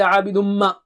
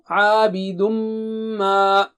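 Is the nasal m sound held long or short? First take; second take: short; long. First: The nasal m sound is short. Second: The nasal m sound is held long. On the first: The speaker calls it wrong. "Don't say" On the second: The speaker calls it right. "On that غنة you have to stretch double"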